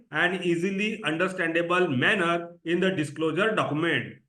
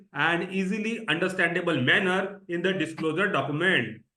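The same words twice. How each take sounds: No difference in how they are said.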